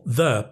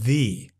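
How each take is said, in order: First: The word is said in its usual form. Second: The word is said in its before-vowel form.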